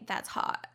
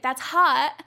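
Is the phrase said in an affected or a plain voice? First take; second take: affected; plain. First: It is said in an affected, ditzy voice. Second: It is said in a plain, ordinary voice. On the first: The speaker calls it right. "You have to say that's hot" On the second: The speaker calls it wrong. "You can't just say like that's hot"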